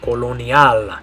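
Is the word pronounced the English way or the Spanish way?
Spanish. It is pronounced with Spanish vowels and sounds. "Spelled exactly the same in Spanish, but the way you say it is"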